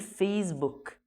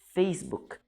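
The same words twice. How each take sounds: First: The middle consonant is a z sound. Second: The middle consonant is an s sound. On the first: The speaker calls it wrong. "في ناس بتقول فيسبوك بالزي" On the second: The speaker calls it right. "بس فيسبوك في سي مش زي، فبالتالي بنقول فيسبوك"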